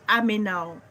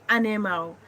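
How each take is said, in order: First: The n and m sounds are swapped around. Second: The n and m sounds are in normal order. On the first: The speaker calls it wrong. "Reversing or mixing up sounds" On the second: The speaker calls it right. "Instead of saying animal"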